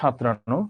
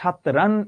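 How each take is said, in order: First: The final vowel is a closer o sound. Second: The final vowel is an open aw sound. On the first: The speaker calls it right. "আন প্রত্যয় থাকলে সেটার অ এর উচ্চারণটা ও এর মতো হয়" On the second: The speaker calls it wrong. "তুমি কি বলবা"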